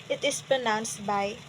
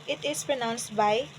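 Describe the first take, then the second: The two takes are said the same way.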